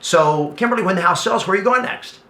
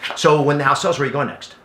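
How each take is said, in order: First: It sounds warm and genuinely interested. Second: It sounds cold, like an interrogation.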